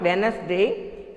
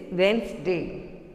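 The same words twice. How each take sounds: First: "Wednesday" in three syllables, WEN-uhs-day; "Wednesday" as wen-nes-day; wrong pronunciation. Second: "Wednesday" in two syllables, WENZ-day; "Wednesday" with no middle vowel; correct pronunciation. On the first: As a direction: say "Wednesday" with an extra middle vowel. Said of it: "It's not Wednesday". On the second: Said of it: "It is Wednesday". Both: Shown as a demonstration.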